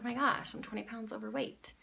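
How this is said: It is said in a depressed tone.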